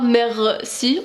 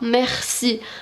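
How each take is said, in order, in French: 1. Le r n'est pas un son kha guttural. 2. Le r est un son kha guttural. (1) "on dit pas merci" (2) "on prononce quand même le kha"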